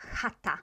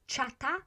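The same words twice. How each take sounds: First: The word starts with a throaty 'h' sound. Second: The word starts with a 'ch' sound. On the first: The speaker calls it right. "but chata" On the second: The speaker calls it wrong. "it's not chata"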